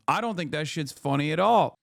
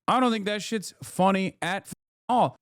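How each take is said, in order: First: Said in the usual way. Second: Higher, with a held break before "all"; "funny at f-, all" broken off, then "all" punched; emphatic repeat. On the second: Shown as a demonstration. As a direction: stop short on "f-" then land "all" hard. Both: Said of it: "repeated for emphasis".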